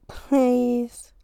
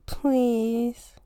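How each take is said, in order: First: Louder, drawn-out pleading please; insistent please. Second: Said in the usual way. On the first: Real, not acted. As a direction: beg for it with a bigger push.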